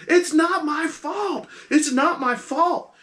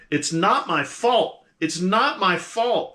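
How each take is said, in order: First: Much higher, louder, slow panicked cry; she's losing control, shrieking her innocence; frantic shriek. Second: Higher, slower, louder panicked pleading; getting louder. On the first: Captive woman ignoring the hush, shrieking in rising panic. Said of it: "she's going". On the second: Captive woman growing frantic as the player tries to hush her. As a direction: her panic rising as she repeats it. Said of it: "she starts getting louder". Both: Acted.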